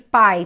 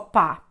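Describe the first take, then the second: First: The vowel glides from a into i. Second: The vowel is a plain single a sound. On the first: The speaker calls it right. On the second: The speaker calls it wrong.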